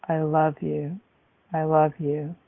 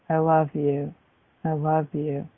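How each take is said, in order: Both takes have the same delivery.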